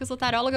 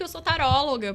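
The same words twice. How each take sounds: First: It is said hesitantly, with an embarrassed tone. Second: It is said firmly, with a confident tone. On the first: The speaker is ashamed of the profession. The speaker calls it wrong. "quando eu falava assim meio com vergonha" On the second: The speaker is proud of the profession. The speaker calls it right. "quando eu falo assim"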